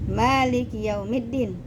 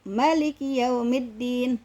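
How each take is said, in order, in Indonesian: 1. Vokal pertama dalam Maliki panjang. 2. Vokal pertama dalam Maliki pendek. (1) "Jadi emaknya panjang" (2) "emaknya pendek"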